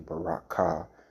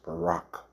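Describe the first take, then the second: First: The word ends with a clear vowel sound. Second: The word ends on a consonant, no vowel. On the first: The speaker calls it wrong. "you don't say baraka" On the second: The speaker calls it right. "it's just barak"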